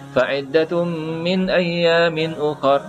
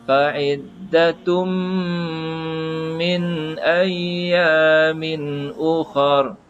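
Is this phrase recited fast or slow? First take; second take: fast; slow. First: It is recited quickly with a short nasal hum. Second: It is recited slowly with a longer nasal hum. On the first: "Kalau kita baca laju" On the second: "Tapi kalau kita baca lambat"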